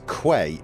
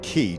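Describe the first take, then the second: First: It is said like kay. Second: It is said the usual way, like kee. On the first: "I say key as quay" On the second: "instead of key"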